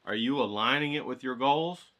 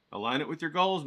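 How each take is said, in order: First: "goals" lifted at the end as a question; rising question. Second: "goals" pressed down firmly as an order; falling command. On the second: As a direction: tell them, dropping on "goals". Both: Shown as a demonstration.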